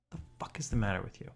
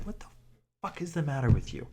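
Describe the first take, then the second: First: Said in the usual way. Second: Louder, higher, indignant outburst; outraged. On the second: Real, not acted. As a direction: blast the question at the cop. Outraged at the cop.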